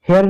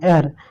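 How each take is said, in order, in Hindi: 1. इस शब्द की शुरुआत में सुनाई देने वाली h ध्वनि है। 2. शब्द स्वर से शुरू होता है, उसमें h नहीं है। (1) "इसको हेयर नहीं" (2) "इसको एयर पढ़ते हैं"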